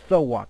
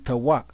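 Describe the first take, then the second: First: The word begins with a th sound. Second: The word begins with a plain t sound. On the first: The speaker calls it right. "because this is a tha" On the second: The speaker calls it wrong. "not a ta"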